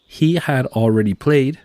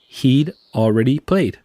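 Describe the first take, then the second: First: The word had is said in full. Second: The word had is shortened onto he. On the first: "Si ves algo como" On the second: "en inglés hablado sería"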